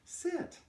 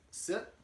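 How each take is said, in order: First: The word is said in a sweet, warm tone. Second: The word is said in a plain, neutral tone. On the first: "add a little bit of uh, sugar to my voice" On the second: "I just say the command word"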